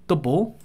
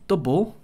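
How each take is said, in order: Both takes have the same delivery.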